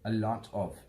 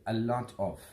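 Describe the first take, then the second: The two takes are said the same way.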